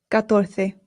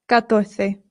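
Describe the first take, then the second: No difference in how they are said.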